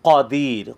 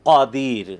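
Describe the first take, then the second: The two takes are said the same way.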